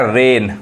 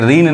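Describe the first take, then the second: First: The vowel is an 'ay' sound. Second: The vowel is a long 'ee' sound. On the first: The speaker calls it right. "क्या पढ़ाएगा, रेन" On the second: The speaker calls it wrong. "यहाँ पे रीन नहीं पढ़ाएगा"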